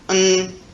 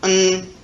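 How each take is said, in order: First: The word has a weak, reduced vowel. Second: The word has a weak, reduced vowel.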